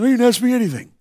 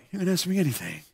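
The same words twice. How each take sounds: First: Said in the usual way. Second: Very soft, low mumble; imitating odd kid. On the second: Mohawked kid replies to the preacher, low mumbling imitation. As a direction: mumble it low, barely audible. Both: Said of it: "Except he was like".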